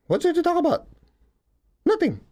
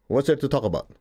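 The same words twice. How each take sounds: First: Much higher, airy mock "What's there to talk about?"; mock high retort. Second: Said in the usual way. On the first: Teasing listeners who cling to their grudges, high mock retort. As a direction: toss it off in a silly high voice, teasing. Mocking repeat of own line.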